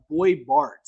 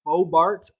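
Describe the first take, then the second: First: Put-on "Boy Bart" with BOY rhyming with toy; unsure pronunciation. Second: "Bo Bart" with BO rhyming with go; alternative pronunciation. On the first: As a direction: try "Boy Bart", first name as one oy sound. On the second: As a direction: offer "Bo Bart", first name ending in plain oh. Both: Shown as a demonstration. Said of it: "not sure how you pronounce it".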